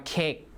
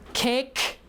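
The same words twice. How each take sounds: First: The final k is not released. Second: The final k is audibly released.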